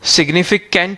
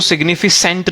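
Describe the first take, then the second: First: The middle consonant is a k sound. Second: The middle consonant is an s sound. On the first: The speaker calls it right. "सिग्निफिकेंट ही read कर रहे हो आप उसको" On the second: The speaker calls it wrong. "सिग्निफिसेंट read नहीं करना आपको उसको"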